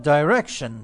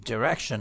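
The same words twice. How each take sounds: First: DIRECTION said as the English do, "dye-REK-shun"; British pronunciation. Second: DIRECTION said as Americans do, "duh-REK-shun"; American pronunciation. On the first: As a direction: start "direction" with a long "eye" vowel, British style. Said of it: "به قول انگلیسی ها". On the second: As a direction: keep the first vowel of "direction" short, American style. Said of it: "به قول آمریکایی ها". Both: Shown as a demonstration.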